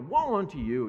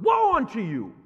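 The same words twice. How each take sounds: First: It is said in a mild, casual tone. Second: It is said in a harsh, scathing tone.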